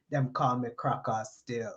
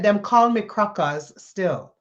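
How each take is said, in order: First: Put-on low, soft Caribbean accent, leaning back; a laid-back Caribbean man giving his nickname in a lower, softer voice; lightly imitated Caribbean accent, low and soft. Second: Slow, lightly imitated Caribbean accent; a hint of a Caribbean man's accent, slow and deliberate. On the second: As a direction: repeat it slowly in his Caribbean accent. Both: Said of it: "in his Caribbean accent".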